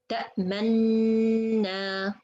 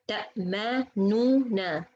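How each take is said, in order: First: The two n sounds merge into one doubled n. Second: Two separate n sounds are pronounced in sequence. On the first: "it's become easier way" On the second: "noon dhamma followed by noon fatha"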